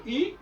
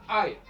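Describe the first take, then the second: First: "I" said as a French ee sound; French letter name. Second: "I" said as English eye; English letter name. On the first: Teacher naming the letter in French, ee sound. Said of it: "Et la lettre I". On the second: Teacher showing the English reading, said eye. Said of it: "il la prononce I". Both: Shown as a demonstration.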